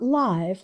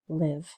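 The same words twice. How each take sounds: First: It is pronounced like the adjective in 'live performance'. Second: It is pronounced like the verb meaning to reside. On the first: It describes something happening in real time. The speaker calls it wrong. "Not live, like a live performance. That's more of an adjective" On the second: It names the action of living. The speaker calls it right. "Here it's the verb form"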